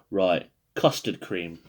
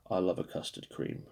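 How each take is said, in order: First: Said in the usual way. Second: Soft whispered confession of love; breathy whisper. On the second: Real, not acted. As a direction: whisper it like a fond secret. Softly confessing love for biscuit.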